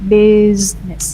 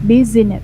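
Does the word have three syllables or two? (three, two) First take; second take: two; three. First: The word is said with two syllables. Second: The word is said with three syllables. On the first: The speaker calls it right. "There are only two syllables here" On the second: The speaker calls it wrong. "It's not correct"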